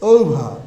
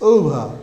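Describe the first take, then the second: The two takes are said the same way.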